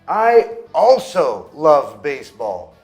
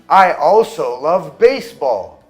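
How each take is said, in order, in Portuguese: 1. A ênfase cai na palavra also. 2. A ênfase cai na palavra baseball. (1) "Se eu coloco o estresse no also e no to" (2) "Se eu coloco o estresse na palavra baseball"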